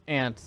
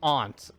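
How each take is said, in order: First: Aunt said just like the insect ant; flat cat vowel in aunt. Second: Aunt said with an open ah, like ont; broad vowel in aunt, rhyming with want; aunt as ahnt. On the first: Checking which word the co-caster means, aunt as ANT. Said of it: "Is there a second way to pronounce". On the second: Checking which word the co-caster means, aunt as AHNT. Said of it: "like your mother's sister". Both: Shown as a demonstration.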